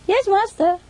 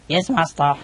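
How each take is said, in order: First: It is said in a boy's voice. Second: It is said in a man's voice.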